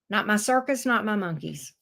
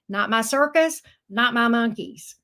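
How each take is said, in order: First: It is said at normal volume. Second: It is said louder.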